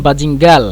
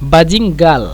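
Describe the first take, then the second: First: The word ends with an l sound. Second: The word ends with an l sound.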